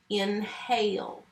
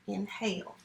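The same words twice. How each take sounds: First: Drawn out slowly for the class; slow model read. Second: Inhale said again, softer and quick; softer repeat. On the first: Teacher reading inhale aloud to students, slow and clear. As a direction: stretch the word inhale out slowly. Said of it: "teacher models reading the word". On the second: Teacher echoing the word inhale to herself, softer. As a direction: drop the voice for the second inhale. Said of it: "teacher repeats the word". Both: Shown as a demonstration.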